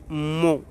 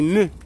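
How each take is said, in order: First: The syllable is said with a nasal vowel. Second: The syllable is said with a plain weak vowel. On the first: The speaker calls it wrong. "On ne prononce pas mon" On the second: The speaker calls it right. "c'est me"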